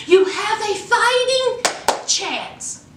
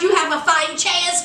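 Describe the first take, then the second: First: "fighting chance" said slowly and higher, each word leaned on; slow emphatic repeat. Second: Said in the usual way. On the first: Retold or imitated. Friend Jasmine urging Grace to fight, slow and emphatic. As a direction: drag out "fighting" to drive it home.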